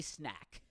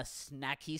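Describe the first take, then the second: First: Said in the usual way. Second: "snacky" said with an added ee ending. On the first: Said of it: "the second time the right way". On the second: Shown as a demonstration. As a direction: end "snacky" on an ee sound. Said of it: "The first time with a Y at the end".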